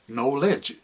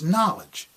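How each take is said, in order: First: The first syllable sounds like the word know. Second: The first syllable sounds like the start of not. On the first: It shows the word's link to its root. "if we were to say it that way" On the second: It is the usual way the word is said. "But it's knowledge"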